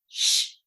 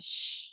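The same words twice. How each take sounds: First: It is a stern, grumpy shush. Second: It is a soft, gentle shush.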